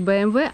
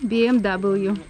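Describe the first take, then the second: First: The letters are read the German way. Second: The letters are read the English way. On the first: The speaker calls it wrong. "не BMW" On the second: The speaker calls it right. "Правильно по-английски"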